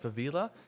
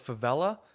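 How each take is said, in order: First: The word has a deliberately altered pronunciation. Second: The word has its usual pronunciation. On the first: "just pronounced wrong, like favela" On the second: "spelled like favela"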